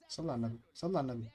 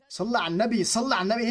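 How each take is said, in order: First: Low and soft, reining yourself in; hushed self-calming. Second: Raised pitch, exasperated insistence. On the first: Gamer calming himself after conceding, hushed self-calming. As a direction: say it quietly to settle yourself. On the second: Gamer losing patience with the game, exasperated. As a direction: let the frustration push the voice up. Same phrase, exasperation bursts out. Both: Real, not acted.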